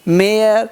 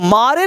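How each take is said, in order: First: The vowel is an 'air' sound. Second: The vowel is an open 'ah' sound. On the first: The speaker calls it right. "मेयर मेयर" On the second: The speaker calls it wrong. "इसको मारे नहीं पढ़ेंगे"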